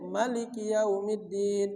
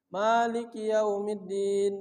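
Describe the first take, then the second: First: The first vowel of Maliki is short. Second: The first vowel of Maliki is long. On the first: "Dia pendek"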